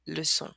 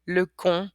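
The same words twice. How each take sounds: First: "leçon" with an S sound, like luh-son; soft-S pronunciation. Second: "lecon" with a hard K, like luh-kon; wrong hard-K pronunciation. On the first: Teacher showing word with its cedilla, soft S. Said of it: "but with it". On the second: Teacher showing word without its cedilla, hard K. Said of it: "this word would be pronounced". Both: Shown as a demonstration.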